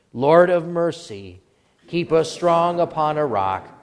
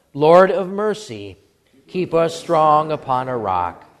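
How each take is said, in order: No difference in how they are said.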